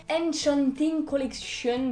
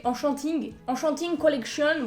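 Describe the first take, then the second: First: ENCHANTING attempted the English way, "enn-chonn-ting"; tentative de prononciation anglaise. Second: English name with a frank French accent; accent français. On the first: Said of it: "je ne sais pas le prononcer". (« Enchanting » tenté à l'anglaise) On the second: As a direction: say "Enchanting" with French nasal vowels, "an-chan-ting". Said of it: "avec mon bel accent français". (bel accent français assumé) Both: Real, not acted.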